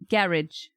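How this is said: It is said in a British accent. "In British English, they say garage"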